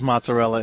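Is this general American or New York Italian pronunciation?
general American. It is said with a general American pronunciation.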